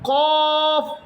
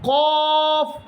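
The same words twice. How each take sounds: Both takes have the same delivery.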